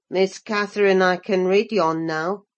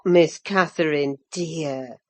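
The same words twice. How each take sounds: First: Put-on low, clumsy Yorkshire boy, proud of himself; a rough farmhand showing off shyly; awkward, elated lad. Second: Put-on low, older housekeeper's gentle cut-in; Ellen interrupting. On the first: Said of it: "with a stupid mixture of awkwardness and elation". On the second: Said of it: "I interrupted".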